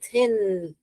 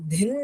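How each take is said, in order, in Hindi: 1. यह कोमल 'th' ध्वनि से शुरू होता है। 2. यह कड़े 'd' ध्वनि से शुरू होता है। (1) "यहाँ पर दिन ध नहीं है, थिन है" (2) "हम दिन नहीं बोलते हैं। ... तो ये गलत होगा।"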